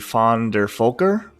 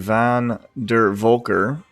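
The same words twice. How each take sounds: First: The name begins with an F sound. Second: The name begins with a V sound. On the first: This is the German reading of the name. "V is pronounced as F in German" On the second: This is the English reading of the name. "the English way to say his name"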